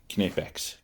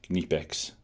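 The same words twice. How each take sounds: The two takes are said the same way.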